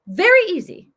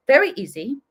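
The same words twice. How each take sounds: First: "Very easy" higher and louder, VERY stressed; emphatic repeat, higher and louder. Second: Said in the usual way. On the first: Retold or imitated. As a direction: hammer "Very easy" home the second time. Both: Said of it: "and he was like".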